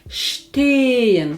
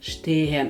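First: The first vowel is held long. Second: The first vowel is cut short. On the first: The speaker calls it right. "ми не вимовляємо, але подовжуємо попередній голосний звук" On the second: The speaker calls it wrong. "не"

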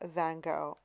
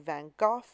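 First: The name is said in a Canadian way. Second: The name is said in a British way. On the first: "I'm originally Canadian, ... and so I say Van Gogh" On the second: "If you're from the UK, people say Van Gogh"

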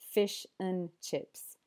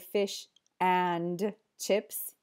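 First: The word 'and' is said in reduced form. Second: The word 'and' is said in full form. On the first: The speaker calls it right. "You usually just hear fish and chips" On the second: The speaker calls it wrong. "They don't say fish and chips"

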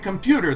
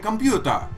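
First: It is said with an English pronunciation. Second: It is said with a Japanese accent, ending in 'ta'. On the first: "Japanese people don't say computer" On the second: "they say computa"

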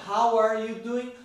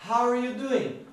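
The two takes are said the same way.

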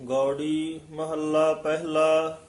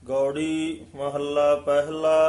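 The two takes are said the same way.

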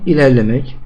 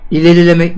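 First: No vowel is heard between r and l. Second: An extra vowel is heard between r and l. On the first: The speaker calls it right. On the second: The speaker calls it wrong.

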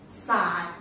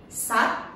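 First: Long vowel, with the pitch going down. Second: Short vowel, with the pitch flicking upward. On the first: "Long one" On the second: "This one is short one"

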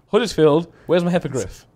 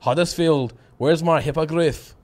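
First: It is said in an English accent. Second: It is said in a Scottish accent. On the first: "that wasn't Scottish. That was English" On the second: "I'll do it in Scottish now"

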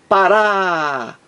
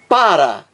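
First: The stress is on the last syllable. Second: The stress is on the first syllable. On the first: "o acento tônico está na última sílaba" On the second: "a sílaba mais forte, o acento tônico, está na primeira sílaba"

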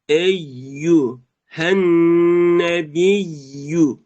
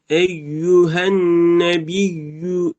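First: The 'yu' is separated with clearly rounded lips. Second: The syllables are run together without lip rounding. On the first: The speaker calls it right. "yu derken ayıracağız şeyleri" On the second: The speaker calls it wrong. "Eyyühen nebiyyü diye okuyorlar. Bu da yanlış"

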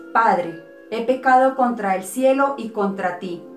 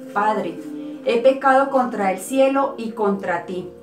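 The two takes are said the same way.

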